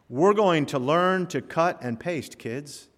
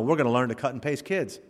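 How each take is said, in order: First: There is a pause before kids. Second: There is no pause before kids.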